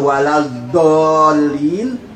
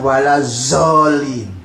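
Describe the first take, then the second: First: The middle consonant is a 'd' sound. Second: The middle consonant is a 'z' sound. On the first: The speaker calls it right. "tidak bisa waladolin" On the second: The speaker calls it wrong. "mereka mesti mengatakan walazolin"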